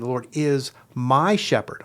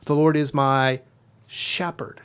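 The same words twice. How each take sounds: First: The stress is on the word my. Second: The stress is on the word shepherd.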